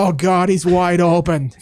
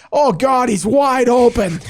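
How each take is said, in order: First: Put-on thick Boston accent, drawn out. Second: High excited shout; screaming fan. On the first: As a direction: say it like an old Boston booster. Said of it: "Just thick Boston accent". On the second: Retold or imitated. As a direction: yell it like a thrilled booster. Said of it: "screams it in the press box".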